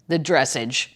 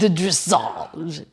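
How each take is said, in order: First: It is said with a Midwestern American accent. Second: It is said with a French accent. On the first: "or as we would say in the Midwest" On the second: "Let me say it as if I'm French"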